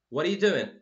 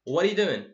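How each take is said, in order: The two takes are said the same way.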